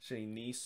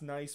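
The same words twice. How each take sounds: First: It sounds like 'neess', with an ee vowel. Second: It rhymes with English 'rice', with a long i. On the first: The speaker calls it right. "in the French pronunciation, it's actually Nice" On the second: The speaker calls it wrong. "people think that it's nice"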